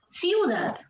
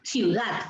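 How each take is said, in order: First: The stress is on the first syllable. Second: The stress is on the last syllable. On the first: The speaker calls it wrong. "Si fuera Siu, diríamos ciudad" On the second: The speaker calls it right. "Es ciudad. ... la fuerza de voz está en that"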